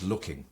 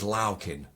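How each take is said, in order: First: Said in the usual way. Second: "loukin" with a broad "ow" vowel and dropped g; dialect pronunciation. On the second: Shown as a demonstration. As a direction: say "loukin" the Ilkeston way, rhyming the first syllable with "cow". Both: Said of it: "which is looking".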